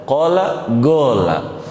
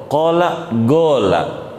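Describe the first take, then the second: The two takes are said the same way.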